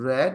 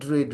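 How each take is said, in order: First: The vowel is short, like in 'red'. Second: The vowel is long, like in 'reed'. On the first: The speaker calls it right. "Pronunciation different." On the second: The speaker calls it wrong. "দেখা একরকম পড়লে হবে না।"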